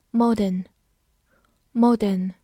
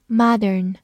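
First: Said in the usual way. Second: "modern" with open "mah" and r-coloured ending; American pronunciation. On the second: Shown as a demonstration. Teacher reviewing vocabulary for learners, American "modern" as MAH-dern. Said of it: "美式发音".

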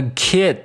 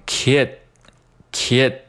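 First: Said in the usual way. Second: Put-on "kid" stopped short with no d burst; unreleased D. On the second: Shown as a demonstration. Teacher drilling learners, slow "kid" with unreleased d. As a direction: hold back the final d of "kid", slowly. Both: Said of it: "这个D需要失去爆破".

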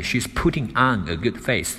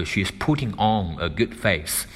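First: Said in the usual way. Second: "on" with a rounded British "aw" vowel. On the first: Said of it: "我们美式英语当中它就读成on". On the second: Shown as a demonstration. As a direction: round the lips on "on", British style. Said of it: "英式英语它可能会读成on".

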